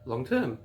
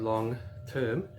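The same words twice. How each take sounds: First: The two words run together as one unit. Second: The two words are said separately with a break. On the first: The speaker calls it right. "it's long term" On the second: The speaker calls it wrong. "Rather than saying long term"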